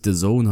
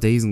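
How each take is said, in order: First: The name ends with the word 'zone'. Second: The name ends with a short 'zen' syllable. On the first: The speaker calls it right. "dass es eigentlich The Zone heißt" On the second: The speaker calls it wrong. "Ich habe immer Dazen gesagt"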